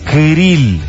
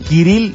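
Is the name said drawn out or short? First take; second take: drawn out; short. First: The name is said drawn out, lengthened. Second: The name is said short, not lengthened. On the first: The speaker calls it right. "alárgalo un poquito más" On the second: The speaker calls it wrong. "No es Kirill"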